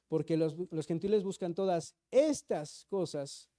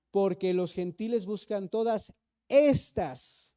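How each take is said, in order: First: Said in the usual way. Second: "todas estas" said slowly and louder; slow emphatic read of "todas estas"; stress on estas. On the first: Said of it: "¿te das cuenta que dice". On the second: Shown as a demonstration. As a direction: lean hard on "estas" slowly. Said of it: "¿te das cuenta que dice estas cosas?".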